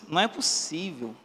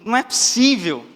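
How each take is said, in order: First: It is said in an uncertain tone. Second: It is said in an astonished tone. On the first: The speaker is starting to doubt what he found. "O segundo, de uma certa incerteza" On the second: The speaker is shocked by what he found. "O primeiro, de espanto"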